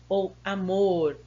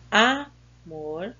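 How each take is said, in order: First: "amor" with a long, strong final syllable, a-MOR; "ou amor", drawing out MOR as the stressed syllable. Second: "amor" with a long, loud first syllable, Á-mor; "amor" wrongly stressed on its first syllable. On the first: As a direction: lean on the last syllable of "amor". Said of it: "é a sílaba mais forte". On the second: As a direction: hit the A of "amor", then drop on mor. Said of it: "qual é a sílaba tônica". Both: Shown as a demonstration.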